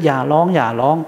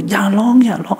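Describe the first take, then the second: First: Tired hushing. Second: Mock soothing a crying kid, pitched up; hushing a crying child. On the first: Retold or imitated. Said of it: "ท่านก็พูดไปเถอะ". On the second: Parent hushing a crying child, quick and raised. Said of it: "ท่านก็บอก".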